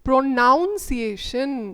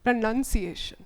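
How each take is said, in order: First: The second syllable sounds like 'noun'. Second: The second syllable sounds like 'nun'. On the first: The speaker calls it wrong. "it is noun, which is wrong" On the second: The speaker calls it right.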